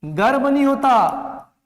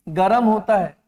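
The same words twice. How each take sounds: First: गर्म slow, with र and म joined, garm; slow, emphatic one-syllable गर्म; wrong pronunciation. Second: गरम in two syllables, ga-ram; lower, falling ग-रम; correct pronunciation. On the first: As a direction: say गर्म with no vowel after र. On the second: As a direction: put a vowel between र and म in गरम. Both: Shown as a demonstration.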